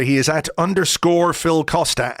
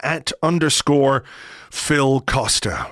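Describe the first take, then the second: First: Said in the usual way. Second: Slow and deliberate, each word separate; slow, spelled out. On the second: Shown as a demonstration. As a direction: read the handle out slowly so they can note it. Repeating the handle slowly.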